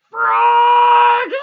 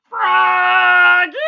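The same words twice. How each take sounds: First: Very loud high call. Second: Calling out. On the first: Mother calling Froggy back, very loud. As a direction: call across the yard. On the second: Mother calling Froggy back a second time, very loud. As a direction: call him back again. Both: Acted. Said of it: "called his mother".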